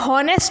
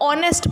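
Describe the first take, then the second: First: The word starts with an h sound. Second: The word starts with a vowel, no h. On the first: The speaker calls it wrong. "अब यहाँ पे हॉनेस्ट नहीं पढ़ते" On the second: The speaker calls it right. "इसको ऑनेस्ट पढ़ते हैं तो एच silent हो गया"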